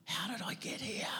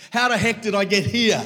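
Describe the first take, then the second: First: A lost whisper to yourself. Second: A loud, stunned cry of disbelief. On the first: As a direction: whisper it, breathy and unvoiced. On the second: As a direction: shout it out, much higher and louder. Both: Retold or imitated. Same question loud then whispered.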